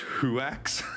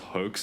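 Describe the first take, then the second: First: The word is said with a 'wah' sound inside. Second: The word is said with a plain 'oh' vowel. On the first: The speaker calls it wrong. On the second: The speaker calls it right.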